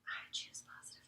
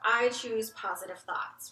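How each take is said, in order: First: It is said in a whisper. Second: It is said aloud at full voice.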